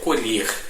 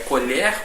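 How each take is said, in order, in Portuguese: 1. A vogal E tônica é fechada. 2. A vogal E tônica é aberta. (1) "com o E fechado" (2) "com o E aberto"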